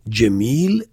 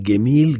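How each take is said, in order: First: The word begins with a J sound. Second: The word begins with a hard G sound.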